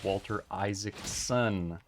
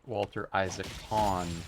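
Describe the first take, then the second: First: The surname ends with a clear 'son'. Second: The surname ends with 'con', without the s. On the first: The speaker calls it right. "His name is" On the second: The speaker calls it wrong.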